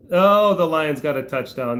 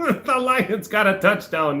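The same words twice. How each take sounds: First: Said in the usual way. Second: Repeats it slowly through a laugh; amused disbelief, drawn out through laughter. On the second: Real, not acted. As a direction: laugh it out, higher and slow. Repeats news while laughing.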